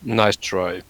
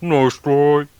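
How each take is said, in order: First: Said in the usual way. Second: High, loud mock Australian accent; weird Aussie accent. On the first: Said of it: "weird Aussie, uh, accent". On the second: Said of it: "in this, uh, weird Aussie, uh, accent".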